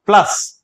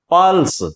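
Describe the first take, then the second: First: "plus" with the weight on ल, punched higher; stress on ल. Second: "pulse" with a long vowel after प; stress on प. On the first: Teacher showing students the correct pronunciation, stress on ल in "plus". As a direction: run through प and lean on ल in "plus". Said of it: "वो लय के ऊपर रहेगा". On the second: Teacher contrasting two words for students, stress on प in "pulse". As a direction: lean on the opening प of "pulse". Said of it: "वो पै का निकलेगा". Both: Shown as a demonstration.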